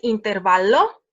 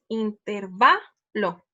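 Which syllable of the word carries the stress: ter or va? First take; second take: ter; va. First: The stress falls on the syllable ter. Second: The stress falls on the syllable va. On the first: The speaker calls it wrong. "No es intervalo" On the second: The speaker calls it right. "es intervalo"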